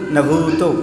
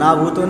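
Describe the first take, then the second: First: The first vowel is kept short. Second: The first vowel is drawn out long. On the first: The speaker calls it right. "न भूतो बोला" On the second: The speaker calls it wrong. "आप लोग ना में आ की मात्रा लगा देते हैं। ना भूतो नहीं"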